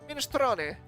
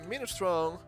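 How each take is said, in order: First: It is pronounced the Italian way. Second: It is pronounced the common English way. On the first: The speaker calls it right. "Isn't this Italian? Therefore, shouldn't it be minestrone?" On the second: The speaker calls it wrong. "I think people say that as minestrone, but I think that's wrong"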